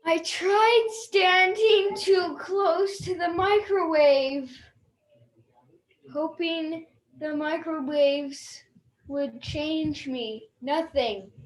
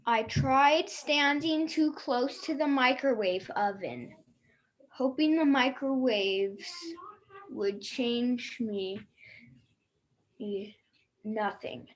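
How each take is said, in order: First: It is read in a surprised tone. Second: It is read in a neutral tone.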